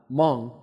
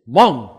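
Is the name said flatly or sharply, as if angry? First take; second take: flatly; sharply. First: The name is said flatly, without a sharp tone. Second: The name is said sharply, sounding almost angry. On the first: The speaker calls it wrong. "my last name in Chinese is not Meng" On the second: The speaker calls it right. "it's Meng"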